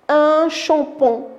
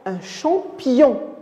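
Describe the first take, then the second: First: The final syllable has no 'y' glide. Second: The final syllable has a 'y' glide. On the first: The speaker calls it wrong. "On ne va pas lire" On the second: The speaker calls it right. "si on place i devant on, ça va donner yon"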